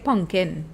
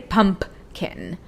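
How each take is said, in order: First: It uses a Trinidadian local pronunciation. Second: It uses a standard, non-Trinidadian pronunciation. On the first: This is how people in Trinidad say it. The speaker calls it right. "In Trinidad, we say pumpkin" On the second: This is not how people in Trinidad say it. The speaker calls it wrong. "We don't say pumpkin"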